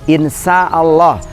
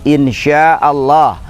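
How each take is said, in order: First: The consonant after 'in' is an s sound. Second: The consonant after 'in' is a sh sound. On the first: If God is bad. The speaker calls it wrong. "kalau shinnya diganti dengan sin" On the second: If God wills. The speaker calls it right. "sya'a berkehendak"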